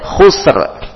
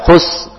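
First: The final r sound is clearly pronounced. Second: The final r sound is left out. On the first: The speaker calls it right. "tetap dibaca huruf ro-nya" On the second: The speaker calls it wrong. "Jangan dihilangkan khus, ro-nya hilang"

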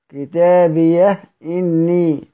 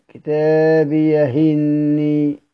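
First: The h ends the word; a glottal stop follows. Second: The h takes the vowel; no glottal stop follows. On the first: This is the reading of most transmitters. "بإسكان الهاء كتابيه إني" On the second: The general rule of vowel transfer is applied. "ينقل اليه الحركة، حركة الهمزة مع حذفها"

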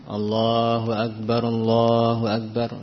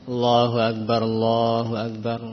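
Both takes have the same delivery.

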